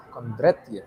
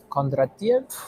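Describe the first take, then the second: First: Kondratiev. with a falling, settled tune; settled statement. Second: Kondratiev? with a rising, unsure tune; questioning tune. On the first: Settling on the economist's name, falling statement. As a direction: land Kondratiev firmly, decided. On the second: Testing how to say the economist's name, rising question. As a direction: try Kondratiev as if checking it. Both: Shown as a demonstration. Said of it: "I said it in a Russian accent".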